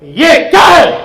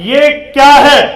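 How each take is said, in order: First: It is said angrily. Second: It is said as a plain question.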